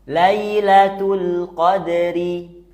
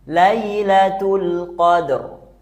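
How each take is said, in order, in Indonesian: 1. Kata ini diakhiri dengan vokal pendek i. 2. Kata ini berakhir pada konsonan terakhir.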